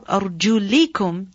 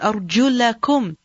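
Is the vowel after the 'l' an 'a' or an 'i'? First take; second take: i; a. First: The vowel after the 'l' is 'i'. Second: The vowel after the 'l' is 'a'. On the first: The feet are included in the wiping. "when you read it with the jar" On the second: The feet are the object of washing. "When you read it as أَرْجُلَكُمْ, then this is maf'ul"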